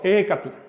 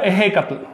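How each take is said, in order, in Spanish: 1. El sonido consonántico del medio es suave. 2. El sonido consonántico del medio es más fuerte. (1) "En el centro... se pronuncia suave" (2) "Si te vas a Veracruz, se pronuncia"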